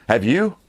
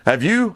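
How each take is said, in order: First: Said in the usual way. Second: "Have you?" repeated higher, pushing for an answer; pressing repeat. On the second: Shown as a demonstration. Pressing viewers about ballot harvesting, insistent repeat. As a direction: lean in on the second "Have you?".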